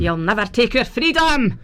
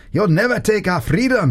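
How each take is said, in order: First: Broad Scottish battle cry; hammed-up Scottish freedom cry; Scottish accent. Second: Mock Braveheart battle cry; hammed-up freedom speech; light Scottish war cry; rallying cry. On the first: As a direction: roll it out in full Scottish. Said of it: "exactly how I sound with my Scottish accent". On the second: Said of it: "go back from the microphone a little bit and say". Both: Shown as a demonstration.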